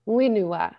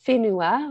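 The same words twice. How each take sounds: First: The word begins with a w sound. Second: The word begins with an f sound. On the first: This is how speakers from one western region say it. "he would drop the H and say whenua" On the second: This is the common way most speakers say it. "instead of saying whenua"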